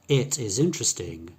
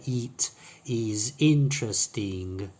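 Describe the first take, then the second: First: The i vowels are short i sounds. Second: The i vowels are long, like ee. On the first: The speaker sounds native. The speaker calls it right. "sounds much more natural" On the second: The speaker sounds foreign. The speaker calls it wrong. "foreigners would pronounce that with a long E ... That sounds foreign"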